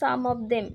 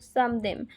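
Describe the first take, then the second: First: The word 'of' is pronounced. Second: The word 'of' is dropped.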